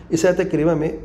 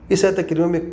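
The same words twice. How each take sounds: The two takes are said the same way.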